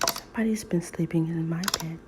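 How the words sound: It is said in a quiet, gentle voice.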